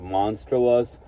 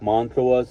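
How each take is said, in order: First: The word is said with the s before t. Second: The word is said without the s before t. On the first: The speaker calls it right. "instead of monstrous" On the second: The speaker calls it wrong. "mispronouncing stuff like montrous"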